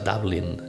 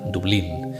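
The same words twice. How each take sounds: First: The name is said with an English pronunciation. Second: The name is said with a Spanish pronunciation. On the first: "la pronunciación inglesa" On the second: "de la forma eh, española"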